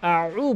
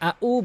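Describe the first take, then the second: First: It starts with a pressed sound from mid-throat. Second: It starts with a plain glottal stop. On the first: The speaker calls it right. "হলকের মাঝখান থেকে চাপ দিয়ে বলতে হবে" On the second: The speaker calls it wrong. "আউ বলা যাবে না"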